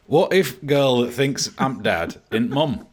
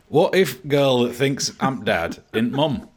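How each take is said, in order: First: It is read in a Yorkshire accent. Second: It is read in a Yorkshire accent.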